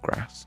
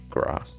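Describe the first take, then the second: First: It is said in a plain accent. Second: It is said in a posh accent.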